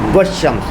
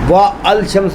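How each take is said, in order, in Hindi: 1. 'al' चुप रहता है और 'sh' में मिल जाता है। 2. 'shams' से पहले 'al' अलग से बोला जाता है। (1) "वाव को शीन से मिलाएंगे" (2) "व अल शम्स नहीं बोलेंगे"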